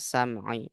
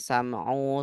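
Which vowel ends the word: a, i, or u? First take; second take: i; u. First: The word ends in an i vowel. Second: The word ends in an u vowel. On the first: The speaker calls it right. "harus dibaca sam'i" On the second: The speaker calls it wrong. "nggak boleh"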